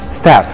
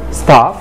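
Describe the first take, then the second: First: The word is said in an American accent. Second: The word is said in a British accent. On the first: "في الامريكان" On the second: "في البريتش"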